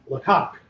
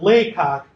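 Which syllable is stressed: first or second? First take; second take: second; first. First: The stress is on the second syllable. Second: The stress is on the first syllable. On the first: The speaker calls it wrong. "you refer to Henry Fox Talbot's home as Lecoq" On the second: The speaker calls it right. "the emphasis is not on the second syllable"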